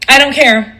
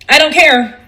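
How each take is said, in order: Both takes have the same delivery.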